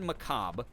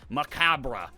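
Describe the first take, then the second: First: The final syllable is low and quiet. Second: The final syllable is fully and strongly pronounced. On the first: "the R E is like very like like low and quiet at the end" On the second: "overpronounce it as like macabre"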